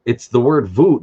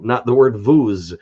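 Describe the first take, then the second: First: "vous" said as French "vu", no S at the end, rising; silent S. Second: "vous" said as "vuz" with the S sounded, the wrong way. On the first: Vlogger showing the right way to say vous, silent S. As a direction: say "vous" as just "vu", no final sound. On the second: Vlogger showing the wrong way to say vous, S sounded. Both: Shown as a demonstration. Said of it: "you don't pronounce that S".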